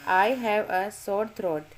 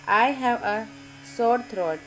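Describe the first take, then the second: No difference in how they are said.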